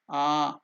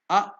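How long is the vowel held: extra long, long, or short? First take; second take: long; short. First: The vowel is held for two beats. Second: The vowel is held for one short beat. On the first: "two unit of time, it is Dirgha" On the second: "only one unit of time, that is Hrasva"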